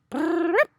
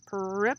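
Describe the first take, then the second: First: It is a fluttering tongue sound against the palate. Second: It is said as a plain spoken word. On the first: The speaker calls it right. "It was probably like" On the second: The speaker calls it wrong. "That's how it was pronounced in the book"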